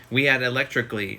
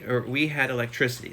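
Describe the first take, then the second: First: "electrically" misread in place of "electricity"; misread word. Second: "electricity" said correctly, with a careful -ity ending; corrected word. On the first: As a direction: says "electrically" with the wrong ending, stumbling over it. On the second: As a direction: rereads "electricity" properly as a fix. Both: Real, not acted.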